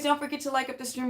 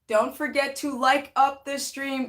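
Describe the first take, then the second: First: It is said fast. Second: It is said slowly.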